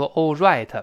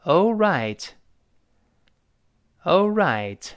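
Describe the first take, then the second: First: "right" with a sloppy, rounded w-like r; mistaken r. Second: "right" with a clear curled r; curled-tongue r. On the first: Teacher shows learners what to avoid, w-like "right". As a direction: say "all right" with the r of "right" not curled. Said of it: "不要读". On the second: Teacher models the correct word, curled r in "right". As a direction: curl the tongue for the r in "All right". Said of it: "注意那个right字母R勾舌头". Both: Shown as a demonstration.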